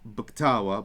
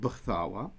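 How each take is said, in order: First: The k is a hard stop sound. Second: The k is a soft breathy sound. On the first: The speaker calls it wrong. "it would be not" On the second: The speaker calls it right.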